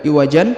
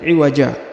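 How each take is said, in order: First: The word ends with an n sound. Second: The word ends with a long a vowel. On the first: The speaker calls it wrong. "bukan iwajan" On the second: The speaker calls it right. "tapi iwaja"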